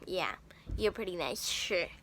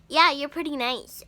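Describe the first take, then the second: First: It sounds sarcastic and insincere. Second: It sounds sincere and friendly.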